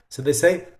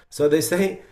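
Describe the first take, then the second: The two takes are said the same way.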